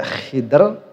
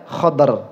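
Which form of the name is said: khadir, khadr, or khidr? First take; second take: khidr; khadr. First: One syllable, with an i vowel first. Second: One syllable, with an a vowel first. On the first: "Dibaca khidr boleh" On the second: "atau beserta fathahnya"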